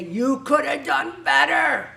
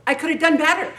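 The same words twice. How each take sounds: First: A slow, loud, scolding shout at yourself; inner critic shouting. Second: Said in the usual way. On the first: Retold or imitated. Perfectionist yelling at herself for not doing better. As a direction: hammer each word like a harsh inner critic. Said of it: "You say". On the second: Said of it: "I always have trouble with that 'cause I think".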